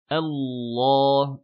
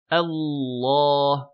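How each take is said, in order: First: The opening hamza is thin and light. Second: The same.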